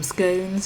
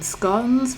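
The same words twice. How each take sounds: First: The vowel is long, rhyming with 'tones'. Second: The vowel is short, rhyming with 'gone'. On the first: "rhyming with tones" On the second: "rhyming with gone"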